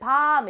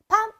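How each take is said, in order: First: The vowel is held long. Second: The vowel is kept short. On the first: It means the chestnut you eat. "이렇게 길게 발음하면 먹는 밤이 되고" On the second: It means the dark night. "이렇게 짧게 발음하면은 깜깜한 밤이 되거든"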